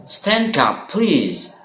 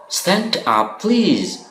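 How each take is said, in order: Both takes have the same delivery.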